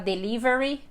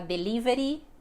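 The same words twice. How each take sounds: First: It is said with an English accent. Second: It is said with a Brazilian Portuguese accent. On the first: This is not how people actually say it. The speaker calls it wrong. "ninguém vai falar delivery" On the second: This is how people actually say it. The speaker calls it right. "vai falar delivery"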